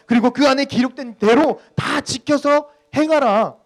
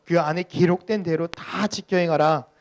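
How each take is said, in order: First: Loud, high, drawn-out command; God commanding. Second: Loud, slow, measured verse reading; scripture reading. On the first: Acted. Pastor re-voicing the verse as God's charge, forceful command. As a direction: hammer out each phrase as God's order. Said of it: "하나님께서 우리들에게 분명히 이렇게 이야기하잖아요". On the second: Real, not acted. Pastor leading the congregation in reading Joshua, measured scripture reading. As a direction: read the verse out slowly and firmly.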